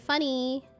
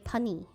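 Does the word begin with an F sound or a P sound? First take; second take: F sound; P sound. First: The word begins with an F sound. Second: The word begins with a P sound. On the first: "try to say funny" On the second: "They say punny"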